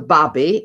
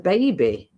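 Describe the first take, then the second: First: It is said in the local dialect form. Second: It is said in the standard form. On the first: It is the way people speak where the speaker grew up. "where I come from, we always used to refer to them as, as babbies" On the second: It is the corrected, standard way of saying it. "sort of correcting you"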